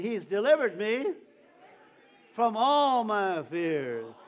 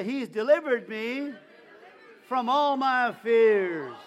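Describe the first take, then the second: First: Loud, slow declaration with "all" stretched; loud preaching chant, first round; call and response. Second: Louder, slower, full-force declaration with "all" drawn out; say it like you mean it. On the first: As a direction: declare it slowly and loudly to the church. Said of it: "Again, say it again". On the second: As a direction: belt it out with total conviction. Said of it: "Say it like you mean it". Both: Shown as a demonstration.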